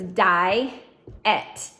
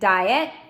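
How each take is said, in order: First: The two syllables are separated by a pause. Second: The two syllables run together quickly. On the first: "we're going to split it down the middle" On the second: "Say it quick"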